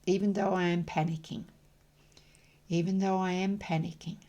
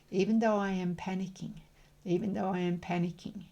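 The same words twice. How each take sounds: The two takes are said the same way.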